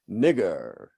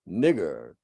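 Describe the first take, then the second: First: It is snarled with a stressed er ending. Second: The same.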